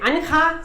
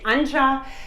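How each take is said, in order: First: The name is said the Spanish way. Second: The name is said the English way. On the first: "Spanish-speaking people, they say Anja" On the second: "English-speaking people, they say Anja"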